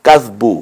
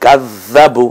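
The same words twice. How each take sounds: First: কাজবু with the z closed straight onto বু; jazm on the z. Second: কাজ্জাবু with a doubled z, then an a; tashdid on the z. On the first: Teacher showing learners jazm, single closed z. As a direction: say কাজবু with a single z and no vowel after it. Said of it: "আর কাজবু মানে হলো জজম আছে". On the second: Teacher showing learners tashdid, slow doubled z. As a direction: hold the z in কাজ্জাবু, slowly, before জাবু. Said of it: "কাজ্জাবু বললে বোঝা যাচ্ছে এখানে জালে তাসদিদ আছে". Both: Shown as a demonstration.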